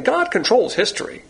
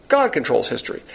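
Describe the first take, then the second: First: God controls history, pitched high and ringing; emphatic proclamation. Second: Said in the usual way. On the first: Acted. Preacher declares to congregation, God controls history lifted high. Repeated statement, first take raised.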